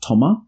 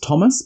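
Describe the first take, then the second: First: The name is pronounced the French way. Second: The name is pronounced the English way. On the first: "because he's French, they pronounce it Thomas" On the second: "his name is Thomas"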